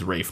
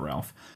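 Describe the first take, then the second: First: The name is said without an l sound. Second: The name is said with an l sound. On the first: The speaker calls it right. "I believe it is Rafe" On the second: The speaker calls it wrong. "not Ralph"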